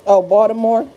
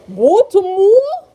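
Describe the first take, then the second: First: Said in the usual way. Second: Put-on high, drawn-out Baltimore accent with rounded vowels; mock Baltimore accent. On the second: Teasing Baltimore people about how they talk, mock Baltimore accent. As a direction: exaggerate a Baltimore accent, stretching it into a rising question. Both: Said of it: "Y'all accent be crazy".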